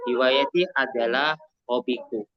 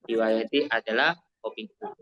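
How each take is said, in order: First: Said in the usual way. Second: Repeated quickly and softer, rising on "adalah"; fast soft recap with "adalah" rising; quicker softer repeat. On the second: Shown as a demonstration. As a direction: rattle it off again, lifting "adalah".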